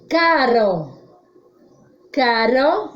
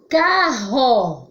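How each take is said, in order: First: "Caro" with a single tapped R; weak R. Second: "Carro" with RR like H; strong R. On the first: Teacher gives a clear example, weak tapped R in "Caro". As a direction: say "Caro" carefully, tongue flicking once on R. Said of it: "Som fraco". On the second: Teacher changes the sound for pupils, strong h-like RR in "Carro". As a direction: say "Carro" carefully, breathy h replacing the tap. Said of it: "Olha, mudei o som". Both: Shown as a demonstration.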